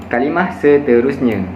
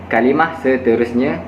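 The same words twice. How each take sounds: No difference in how they are said.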